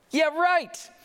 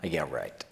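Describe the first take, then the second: First: High, punchy mock disbelief; exaggerated disbelief. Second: Low, quiet dismissive scoff. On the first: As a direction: throw it out high and incredulous. Repeats the scoff, far louder. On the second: Acted. Crowd doubting the prophecy, quietly scoffing. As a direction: drop it low and under your breath.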